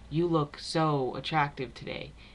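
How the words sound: The stress is on the word so.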